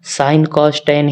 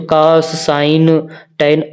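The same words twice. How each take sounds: First: Slow firm sine cos tan in the right order; right order, slowly. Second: Slow demo of the wrong order cos sine tan; wrong order, slowly. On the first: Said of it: "sine cos tan ही पढ़ोगे". (धीरे और पक्के से सही क्रम sine cos tan) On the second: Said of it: "ऐसे मत पढ़ना". (धीरे से गलत क्रम cos sine tan) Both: Shown as a demonstration.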